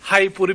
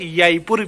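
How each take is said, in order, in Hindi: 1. यह एक हल्की साँस वाली h आवाज़ से शुरू होता है। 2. यह y आवाज़ से शुरू होता है। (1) "तीन साउंड सुने हैं" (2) "तीन साउंड सुने हैं"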